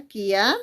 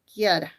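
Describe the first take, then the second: First: "Kiara" broken in two, "Kia" held and rising, pause, then "ra"; split into syllables. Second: Said in the usual way. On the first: Shown as a demonstration. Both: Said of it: "¿Cómo se separa?".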